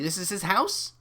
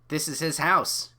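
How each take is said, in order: First: The voice rises at the end. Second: The voice falls at the end.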